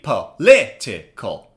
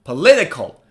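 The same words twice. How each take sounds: First: "Political" slowly split, LIT stressed; low, slow "Political" with pauses, LIT strongest; slow, syllable by syllable. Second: "Political" in one go, LIT stressed; quick "Political" peaking on the second syllable; faster, joined up. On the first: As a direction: model "Political" in four separate beats for repeating. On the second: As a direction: say "Political" as a whole word, punching LIT. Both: Shown as a demonstration. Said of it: "Now say it faster".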